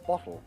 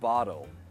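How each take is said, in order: First: The T is crisp, tongue behind the teeth. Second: The T sounds like a soft D. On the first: It sounds very posh and upper class. "a very posh T" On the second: It sounds American. "Americans would pronounce it as a D"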